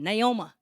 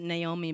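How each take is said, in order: First: The name ends with an 'uh' sound. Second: The name ends with an 'ee' sound. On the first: This is a Deep East Texas way of saying it. "he pronounced it Naoma" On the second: This is the speaker's own way of saying it. "I pronounce it Naomi"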